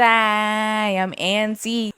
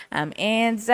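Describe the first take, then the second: First: Drawn out. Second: Said in the usual way. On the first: Retold or imitated. Quoting song hook slowly.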